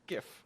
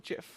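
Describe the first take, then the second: First: The word begins with a hard G sound. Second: The word begins with a J sound. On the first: The speaker calls it right. "It's a GIF" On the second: The speaker calls it wrong. "not a GIF"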